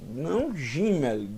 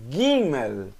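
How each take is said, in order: First: Gimel dito com G de gente, como J; o jeito errado, Gimel com som de J; G mole errado. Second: Gimel dito com G duro, como em gato; o jeito certo, Gimel com G de gato. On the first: (Gimel com J, a pronúncia errada) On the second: (Gimel com G duro, a pronúncia certa) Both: Shown as a demonstration.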